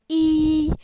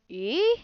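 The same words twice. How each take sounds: First: The pitch stays level and high. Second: The pitch goes up from mid. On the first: "a high tone is like e" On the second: "a rising tone is like e, like in a question"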